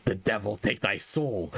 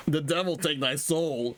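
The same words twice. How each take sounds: First: Said in the usual way. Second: A touch of a raging shout; mock shout. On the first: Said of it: "he s-, shouts". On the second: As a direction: throw a curse with rage. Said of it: "he shouts".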